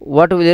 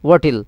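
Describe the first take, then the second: First: Will is said in full with its w. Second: Will is reduced to a short l sound.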